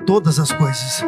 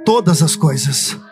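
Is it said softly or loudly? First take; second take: softly; loudly. First: It is said at normal loudness. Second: It is said louder and more forcefully.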